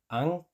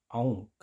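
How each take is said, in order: First: Ang said with a plain a; teacher gives the plain-vowel take. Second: Aung said with au before ng; teacher gives the au take; Icelandic au. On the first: Plain a sound. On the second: Au before ng. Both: Shown as a demonstration. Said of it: "cambia a aung".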